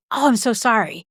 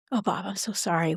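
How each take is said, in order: First: Eager chatterbox. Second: Gentle, sincere. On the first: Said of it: "I'm the question machine". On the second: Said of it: "say the thing that matters the most". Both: Shown as a demonstration.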